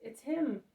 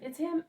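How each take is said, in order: First: Loud repeat, the tune falling to a firm close; second shout with a falling tune; excited shout. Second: Loud, higher cry of recognition rising at the end; first shout with a rising tune; excited shout. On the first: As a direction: say it again with certainty, landing down. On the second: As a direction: call out the first sighting, voice leaping up. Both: A narrator's reading. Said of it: "shouts Simon".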